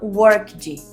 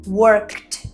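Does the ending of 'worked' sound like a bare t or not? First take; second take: not t; bare t. First: The ending is not a plain t sound. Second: The ending is a plain t sound. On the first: The speaker calls it wrong. "e não worked" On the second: The speaker calls it right. "o E D vai ter som de T"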